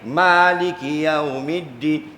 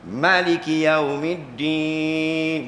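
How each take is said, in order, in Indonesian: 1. Vokal pertama pada maliki itu panjang. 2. Vokal pertama pada maliki itu pendek. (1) "dua saja yang baca alif" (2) "mereka membaca ma tu tidak ada alif"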